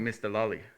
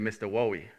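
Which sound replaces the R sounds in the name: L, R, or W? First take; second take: L; W. First: The R sounds in the name become L sounds. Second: The R sounds in the name become W sounds. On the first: Speakers without an R sound said it. "in Korea, there's no R pronunciation" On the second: Young children said it. "with the younger ones"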